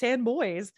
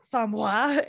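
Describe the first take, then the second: First: The name is said like English 'sand boys'. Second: The name is said with French-style sounds. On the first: This is the confirmed local pronunciation. The speaker calls it right. "which is how we say it" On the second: This is the original spelling-based pronunciation. The speaker calls it wrong. "technically it's very French"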